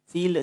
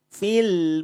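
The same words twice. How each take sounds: First: The final l bounces into a short vowel. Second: The final l ends cleanly with no vowel. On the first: The speaker calls it wrong. "tidak ada le-nya. Awas hati-hati jangan sampai memantul" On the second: The speaker calls it right. "lam lamnya tawasud bainiyah"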